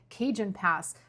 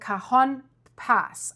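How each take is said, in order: First: The first word sounds like 'Cajun'. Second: The first word sounds unlike 'Cajun'. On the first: The speaker calls it wrong. "In my last video, I said Cajun Pass" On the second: The speaker calls it right. "I hope I pronounced this right"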